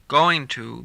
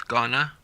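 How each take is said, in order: First: The phrase is said in full. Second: The phrase is reduced to gonna.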